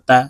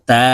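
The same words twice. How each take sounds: First: The vowel is short and quick. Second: The vowel is drawn out long. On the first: "এখানে টান দেওয়া যাবে না, তাড়াতাড়ি করে পড়তে হবে" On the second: "এই হরফকে এক আলিফ টেনে পড়তে হবে"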